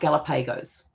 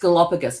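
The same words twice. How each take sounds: First: The word is said the way it looks spelled. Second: The word is said in its usual pronunciation. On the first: The speaker calls it wrong. "I'll pronounce it how it looks" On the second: The speaker calls it right. "it's Galapagos"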